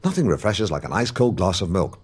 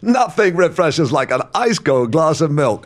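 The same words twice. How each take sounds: First: The line is spoken at a quick pace. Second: The line is spoken with laughter in it. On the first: "Say it faster" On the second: "Put a laugh in it"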